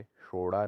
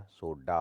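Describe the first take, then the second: First: सोडा said as shora; flapped r. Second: Said in the usual way. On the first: Shown as a demonstration. Teacher shows the error, सोडा with flapped ड़. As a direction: flap the middle of सोडा. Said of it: "नहीं होता". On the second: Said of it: "होता है".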